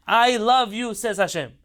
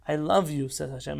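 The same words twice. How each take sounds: First: "I love you" louder and higher, stress on love; emphatic repeat. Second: Said in the usual way. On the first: Shown as a demonstration. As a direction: hammer home "love" as Hashem's words. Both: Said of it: "Hashem literally says those words".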